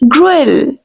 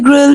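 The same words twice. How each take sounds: First: The u and e vowels are both pronounced. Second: It is said as one short syllable, 'grill'. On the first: The speaker calls it right. "You have to pronounce U and E" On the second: The speaker calls it wrong. "You don't uh, need to say grill"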